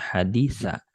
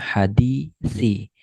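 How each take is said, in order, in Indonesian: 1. Kata ini diakhiri dengan vokal a. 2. Kata ini diakhiri dengan vokal i. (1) "bukan hadisa" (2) "berarti ini dibaca hadisi"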